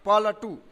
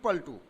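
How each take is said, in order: First: The l and t are separated by a vowel. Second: The l and t are joined as a cluster. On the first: "प ल ट दीर्घकार" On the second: "प ल ट संयुक्त"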